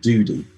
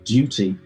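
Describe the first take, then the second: First: The middle T is soft, almost a D. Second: The middle T is pronounced clearly. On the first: The speaker calls it wrong. "without it sounding like duty" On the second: The speaker calls it right. "couldn't actually say duty"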